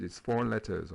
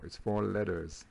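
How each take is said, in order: First: "letters" with a clear middle T; British pronunciation. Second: "letters" with the T softened almost to a D; American pronunciation. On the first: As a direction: say "letters" the English way, T kept. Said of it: "les Anglais diraient peut-être". (« letters » à l'anglaise, avec un vrai T) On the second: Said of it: "les Américains disent letters". (« letters » à l'américaine, T presque changé en D) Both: Shown as a demonstration.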